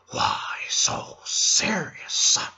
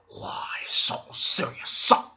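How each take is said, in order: First: Menacing hushed villain monologue; imitating the Joker telling his scar story; Joker impression. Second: Slow whispered taunt rising at the end; Joker's second whispered taunt; creepy Joker whisper. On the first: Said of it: "he turns to me and he says". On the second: Retold or imitated. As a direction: hush it like a knife at the throat. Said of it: "He comes at me with the knife".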